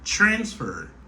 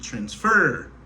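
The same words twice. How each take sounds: First: The stress is on the first syllable. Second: The stress is on the last syllable. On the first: The speaker calls it right. "mwen aksentue sou premier silab la" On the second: The speaker calls it wrong. "si m te aksentue sou dernier silab la"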